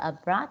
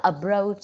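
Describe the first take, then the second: First: "abroad" as uh-brawd with a firm B; teacher shows the right "abroad"; correct pronunciation. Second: The mistaken "abroad" a student might say; wrong pronunciation. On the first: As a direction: model "abroad" cleanly, uh-brawd. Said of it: "đọc là abroad giùm cô". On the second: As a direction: give "abroad" a mistaken ending, uh-broach. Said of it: "không đọc là abroad nhé". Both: Shown as a demonstration.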